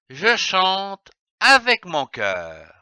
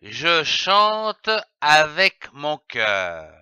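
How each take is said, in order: First: Said in the usual way. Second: "Je chante avec mon cœur" with the voice lowered on "cœur"; falling at the full stop. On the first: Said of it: "À toi de lire cette phrase". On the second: Shown as a demonstration. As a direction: let the voice sink on "cœur" as the sentence ends. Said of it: "il faut baisser la voix au point, comme ceci".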